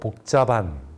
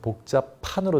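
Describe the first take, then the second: First: The last syllable starts with a plain consonant. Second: The last syllable starts with an aspirated consonant. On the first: The speaker calls it wrong. "히읗을 탈락시키고 사투리 발음" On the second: The speaker calls it right. "피읍으로 바뀌죠"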